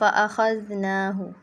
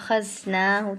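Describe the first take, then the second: First: The middle consonant is soft, without hissing. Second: The middle consonant is harsh, with hissing. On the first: The speaker calls it right. "ये जाल का सही मखरज हो गया" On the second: The speaker calls it wrong. "इसमें मैंने सीटी डाली, सख्ती करी है इसको"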